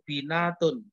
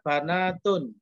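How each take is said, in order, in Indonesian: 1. Vokal pertama adalah bunyi i. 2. Vokal pertama adalah bunyi a. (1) "banyak yang membaca itu binatun, terpengaruh dari bintun" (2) "bacanya banatun, baknya di fathah"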